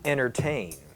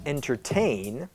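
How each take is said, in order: First: The T in the middle is dropped entirely. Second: The T in the middle is clearly sounded. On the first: "and then with the T that disappears" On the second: "first with the T that you might expect"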